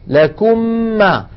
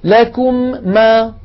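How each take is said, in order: First: The two m sounds merge into one. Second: The m is articulated twice, separately. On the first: The speaker calls it right. "أطبقنا على ميم ساكنة وفتحنا على ميم متحركة" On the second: The speaker calls it wrong. "يعيد الحرف مرتين ويكرر المخرج"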